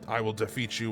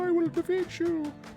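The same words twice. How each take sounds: First: It is said in a plain, ordinary voice. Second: It is said in a put-on character voice.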